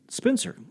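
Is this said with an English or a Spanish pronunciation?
English. Plain English pronunciation, starting directly with S. "I'd say Spencer"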